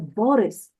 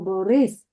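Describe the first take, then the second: First: The stress is on the first syllable. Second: The stress is on the second syllable. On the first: This is how the name is stressed in this language. "а тут буде Борис" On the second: This is how the name is stressed in Ukrainian. "ми кажемо Борис"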